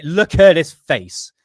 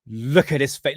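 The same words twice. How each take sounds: First: "look at his face" slowly, loud, weight on "at"; slow emphatic look. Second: Said in the usual way. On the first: Real, not acted. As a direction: drag out "look at his face" loudly to force the joke. Insisting viewers look at photo.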